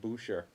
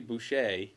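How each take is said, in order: First: The name is pronounced the English way. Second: The name is pronounced the French way. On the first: This is how the family has grown used to saying it. "we've sort of become accustomed to saying Boucher" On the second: This is how the name really should be said. "which is the the French pronunciation"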